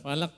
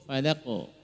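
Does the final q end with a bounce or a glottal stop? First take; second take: glottal stop; bounce. First: The final q ends with an added glottal stop. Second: The final q ends with a light echoing bounce. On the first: The speaker calls it wrong. "hindari jangan sampai menambah hamzah sukun" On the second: The speaker calls it right. "tapi cukup falaqo"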